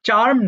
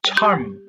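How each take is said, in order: First: The first consonant is plain, without a puff. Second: The first consonant is aspirated, with a puff. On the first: The speaker calls it wrong. "চার্ম না" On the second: The speaker calls it right. "বরং ছ ছ চার্ম"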